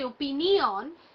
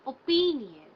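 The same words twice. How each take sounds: First: The first vowel is short. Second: The first vowel is a long 'oh'. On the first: The speaker calls it wrong. "We don't say opinion" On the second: The speaker calls it right. "It is the longer O sound"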